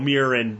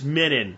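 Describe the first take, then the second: First: The middle consonant is an R sound. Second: The middle consonant has no R sound. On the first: The speaker calls it right. "There's an R in there" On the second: The speaker calls it wrong. "what is wrong with you?"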